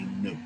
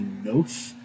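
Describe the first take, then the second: First: The word ends with a t sound. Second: The word ends with a th sound. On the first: No distinction is made between the two forms of the letter. "they just say note" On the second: The letter is read as the form without the dot. "like oath, like you take an oath with a uh, with an N sound at the front of it"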